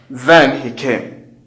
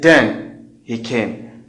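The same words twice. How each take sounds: First: Then begins with a voiced th sound. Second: Then begins with a d sound. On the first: The speaker calls it right. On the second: The speaker calls it wrong.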